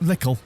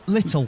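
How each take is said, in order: First: The middle consonant sounds like a k. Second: The middle consonant is a clear t sound. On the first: This is how it comes out in everyday conversation. "in your head, you say lickle" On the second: This is the proper way the word is said. "But it's actually l- l- little"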